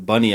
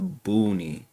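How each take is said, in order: First: The first vowel is a short 'uh' sound. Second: The first vowel is a long 'oo' sound. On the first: The speaker calls it wrong. "I pronounced it as Bunny at first" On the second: The speaker calls it right. "a commenter said it's a Booney"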